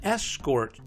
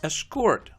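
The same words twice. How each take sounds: First: The stress is on the first syllable. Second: The stress is on the second syllable. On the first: It is used as a noun. "Two-syllable nouns are stressed on the first syllable" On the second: It is used as a verb. "Two-syllable verbs are stressed on the second syllable"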